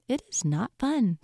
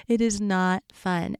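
First: Said in the usual way. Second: "It is not fun" said slowly, each word pressed; slow down and weigh "It is not fun"; slow emphasis. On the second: Shown as a demonstration.

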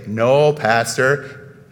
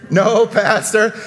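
First: Very slow drawn-out "No, Pastor" in a low voice; slow call-and-response demo; prompted response. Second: "No, Pastor" said slowly and firmly; firm call-and-response reply; prompted response. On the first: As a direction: model the congregation's reply, stretching each word. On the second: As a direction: lead the room in answering back. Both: Shown as a demonstration. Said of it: "You're all supposed to say".

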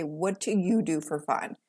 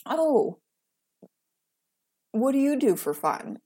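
First: Low, pointed turning of the question; a quiet pointed comeback. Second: Higher, mock-curious prying question; lightly voiced prying acquaintance; mocking nosy asker. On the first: Retold or imitated. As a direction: throw the question back at them, cool. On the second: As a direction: parody the person asking, pitched up.

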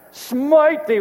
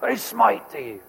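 First: Higher, louder booming decree; hammed-up divine curse; mock smiting. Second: Lightly voiced movie line; a hint of the comedy smiting line; Bruce Almighty quote. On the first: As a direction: call down wrath like an angry god. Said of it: "we wanna see God smite". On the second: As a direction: toss off the film quote casually. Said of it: "He goes".

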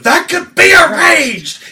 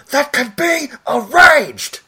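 First: High, loud, slowed-down roar; imitating Tim Curry's cardinal shout; villain shout. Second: Slow, high villain shout; full volume. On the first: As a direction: belt out the threat. Retelling same Tim Curry line. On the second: Retold or imitated. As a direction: roar it with passion. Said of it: "full volume".

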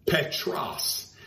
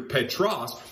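First: Greek word Petros, stressed on PEH. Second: Petros, PEH-tros, clipped with a falling tune; Petros, first syllable stressed; Greek word Petros. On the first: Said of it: "the Greek name". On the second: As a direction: set Petros against Petra, stressing PEH. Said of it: "the name Peter, Petros". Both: Shown as a demonstration.

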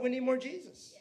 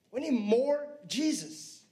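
First: Said in the usual way. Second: "need" leaned on, said slower; slow it down and press "need" in "We need more Jesus."; repeating "We need more Jesus." slowly, stressing "need"; slow emphatic repeat. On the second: Shown as a demonstration.

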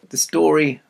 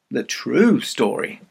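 First: Said in the usual way. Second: TRUE drawn out slowly; the story, with a long, emphatic "true"; stress on TRUE. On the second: Shown as a demonstration. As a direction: lean on "true" and stretch it. Restates it, stressing the word true.

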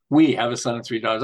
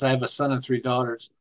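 First: We have a son and three daughters, with "We" stressed firmly as a correction; correcting himself with weight on "We". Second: I have a son and three daughters, leaning on "I"; slight stress on "I" before the correction. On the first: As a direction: punch "We" to fix the slip. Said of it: "but it's we". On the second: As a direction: hit the word "I" a little harder. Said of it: "I like to say I". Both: Shown as a demonstration.

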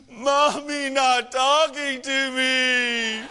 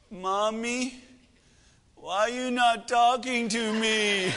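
First: Loud, high, drawn-out mock sobbing; hammed-up child's wail through sobs; sobbing little girl. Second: Put-on plaintive little girl. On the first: Crying daughter complains to dad about mom, loud imitated wail. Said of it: "this was Bailey's response". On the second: Daughter asks mom over FaceTime.

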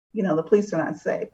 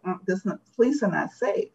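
First: Said in the usual way. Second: Visceral inner voice. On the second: Retold or imitated. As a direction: lightly voice the gut fear, mildly tense. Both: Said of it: "This other more visceral part of me was like".

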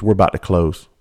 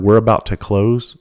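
First: Said in the usual way. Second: Slow, drawn-out "close" with a rising end; how he heard it. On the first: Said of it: "she goes". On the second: Retold or imitated. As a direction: stretch it out as if hearing the insult beneath. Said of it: "And I heard".

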